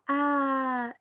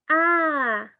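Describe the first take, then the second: First: Put-on baby coo. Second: Loud high exclaimed "ah"; meaningful baby vocalization. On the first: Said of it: "El arrullo es como". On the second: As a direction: call out "ah" with new meaning, louder and higher. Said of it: "la vocalización puede ser". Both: Shown as a demonstration.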